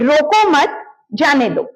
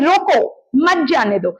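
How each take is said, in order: First: The pause falls after the word mat. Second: The pause falls after the word roko. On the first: "इसका एक मतलब होता है" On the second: "अगर आप tone बदल दें, आप रुक जाएंगे"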